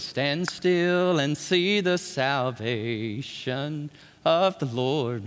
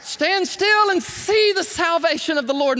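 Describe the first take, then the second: First: Very slow, low and hushed proclamation; solemn declaration. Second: Higher, louder proclaiming cry; Moses crying out. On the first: Moses telling the people to stand still, slow solemn hush. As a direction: draw it out with calm faith. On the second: Moses crying out to the people at the sea, loud ringing proclamation. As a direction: ring it out in triumph. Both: Retold or imitated. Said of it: "Moses cried".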